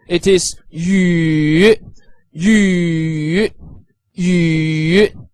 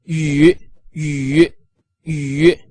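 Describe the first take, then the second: First: Yu drawn slowly, dipping down and rising again; slow falling-rising yu for demonstration; third tone yu. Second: Brisk third-tone yu; clipped everyday yu; short third tone yu. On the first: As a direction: stretch yu through the third tone. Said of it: "third tone that is going upper to lower and then upper again". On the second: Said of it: "the shorter version". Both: Shown as a demonstration.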